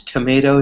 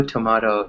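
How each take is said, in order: First: Tomato said as tomayto; to-MAY-to. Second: Tomato said as tomahto; to-MAH-to. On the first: Teacher giving the first version of tomato. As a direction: say tomato with a long AY. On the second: Teacher giving the second version of tomato. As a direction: say tomato with a broad AH. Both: Shown as a demonstration. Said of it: "pronounce the same word differently".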